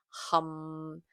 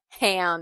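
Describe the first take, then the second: First: The vowel is like the one in 'cup'. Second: The vowel is like the one in 'cat'. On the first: The speaker calls it right. "It's hum" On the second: The speaker calls it wrong. "but it's not ham"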